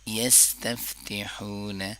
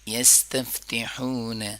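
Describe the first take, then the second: No difference in how they are said.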